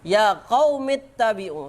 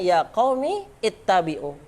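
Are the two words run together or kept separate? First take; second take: run together; separate. First: The two words are joined without the initial vowel. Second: The two words are separate with the initial vowel. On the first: "setiap hamzah wasal diteruskan"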